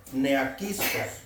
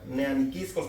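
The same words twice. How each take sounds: First: "neaquiscos" drawn out slowly, without the "ni"; mistaken word form. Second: "neaniquiscos" with the added "ni", stress on QUIS; corrected word form. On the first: Real, not acted. Preacher sounding out a Greek word, slow slip "neaquiscos". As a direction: say "neaquiscos" slowly as ne-a-QUIS-cos. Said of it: "No, neaniquiscos, perdón". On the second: Shown as a demonstration. Preacher correcting himself, "neaniquiscos" accented on the I. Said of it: "con acento en la I".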